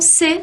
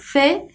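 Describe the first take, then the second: First: It starts with a plain 's' sound. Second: It starts with a lisped 'th' sound. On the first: This is how it is said in the Americas. "aqui na América, não se fala dessa forma. Vocês podem dizer então C" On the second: This is how some places in Spain say it. "com esse sibilado, a língua para fora"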